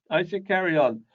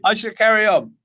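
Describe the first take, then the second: First: Said in the usual way. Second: Laughing. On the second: Real, not acted. Laughs after joke about hair.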